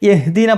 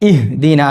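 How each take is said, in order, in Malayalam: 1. വാക്ക് 'ya' ശബ്ദത്തോടെയാണ് തുടങ്ങുന്നത്. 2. വാക്ക് വ്യക്തമായ 'i' സ്വരാക്ഷരത്തോടെയാണ് തുടങ്ങുന്നത്. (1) "സാധാരണ ചില ആള് യഹ്ദീന പറയാറുണ്ട്" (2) "ഇഹ്ദിന എന്നാണ്. ഈ കേൾക്കണം"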